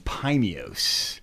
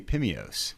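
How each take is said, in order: First: The name is said with a hard, strong sound. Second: The name is said with a soft, light sound. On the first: The speaker calls it right. "I think I said it correctly" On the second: The speaker calls it wrong. "that would sound like some kind of like gum or mints"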